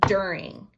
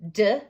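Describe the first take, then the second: First: Said in the usual way. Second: "D-er-ing." chopped into separate sounds; syllable by syllable. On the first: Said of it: "the first word in my sentence is during". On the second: Shown as a demonstration.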